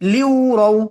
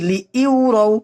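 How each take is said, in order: First: 'Li' flows straight into 'yu' without a catch. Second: A glottal catch separates 'li' from 'yu'. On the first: The speaker calls it right. "এখানে হামজার উচ্চারণ হবে না, সরাসরি লিউ" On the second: The speaker calls it wrong. "আমরা এখানে অনেকেই পড়ি লি ইউরাও, এখানে কিন্তু হামজা না"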